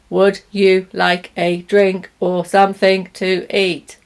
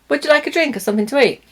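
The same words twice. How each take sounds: First: Each word is said separately and fully. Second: The words run together with reduced sounds. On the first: The speaker calls it wrong. "a robot who says the words like that" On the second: The speaker calls it right. "What it would sound like is"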